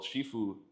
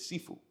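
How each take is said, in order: First: The word begins with a 'sh' sound. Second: The word begins with an 's' sound. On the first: This is the form used in the movie. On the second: This is the form used in their own school.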